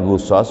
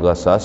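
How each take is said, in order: First: The first vowel is u. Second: The first vowel is a. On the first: The speaker calls it right. "dibacanya ghusas" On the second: The speaker calls it wrong. "bukan ghasas"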